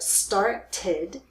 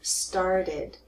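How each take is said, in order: First: The middle consonant is a clear T sound. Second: The middle consonant sounds like a soft D. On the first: "instead of started" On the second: "you will hear started. It sounds like D"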